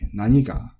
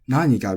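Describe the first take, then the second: First: The pitch accent falls on the second syllable. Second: The pitch accent falls on the first syllable. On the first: This is the Kansai pronunciation. "in the Kansai region, it is pronounced nani with the accent on the ni" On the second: This is the standard pronunciation. "instead of naniga"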